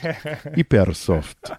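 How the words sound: It is said in a put-on Italian-style accent.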